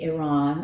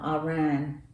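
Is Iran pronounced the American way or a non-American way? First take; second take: non-American; American. First: Iran is pronounced in a non-American way. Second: Iran is pronounced the typical American way. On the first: The speaker calls it right. "Excuse me" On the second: The speaker calls it wrong. "I said I was not going to say it that way. That's the way Americans say it"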